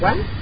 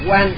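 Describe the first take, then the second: First: The syllable is said with a rising pitch. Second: The syllable is said on a level pitch. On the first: The speaker calls it right. "thật sự là quán" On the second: The speaker calls it wrong. "thường mình đọc sai là Quan Thế Âm"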